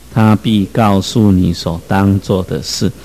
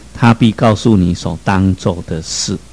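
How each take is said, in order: Both takes have the same delivery.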